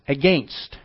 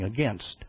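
First: It is said the way Canadians pronounce it. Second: It is said in the speaker's usual pronunciation. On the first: "we heard the Canadians speak and they would say" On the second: "when we knew they should be saying against"

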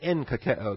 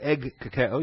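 First: The first syllable is said with an n. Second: The first syllable is said with a hard g. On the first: The speaker calls it right. "you say en kakeo" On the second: The speaker calls it wrong. "you don't say egg kakeo"

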